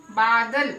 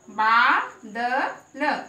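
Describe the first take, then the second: First: Said in the usual way. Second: बा, द, ल one by one, बा held long; sounded out. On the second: Shown as a demonstration. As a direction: spell out बा, द, ल with a pause after each. (बा, द, ल अक्षर-अक्षर अलग करके) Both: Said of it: "उसको हम लंबा बोलेंगे".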